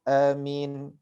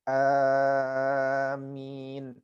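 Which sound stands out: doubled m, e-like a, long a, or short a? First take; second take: short a; long a. First: The first a is short. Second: The first a is long and the m light. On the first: This is the second well-known reading. "yang kedua adalah dibaca dengan dengan pendek" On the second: This is the most eloquent reading. "yang paling fasih dengan membaca amin ya. Jadi a-nya dipanjangkan ya"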